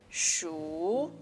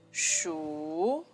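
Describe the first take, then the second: First: The pitch rises through the syllable. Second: The pitch rises through the syllable.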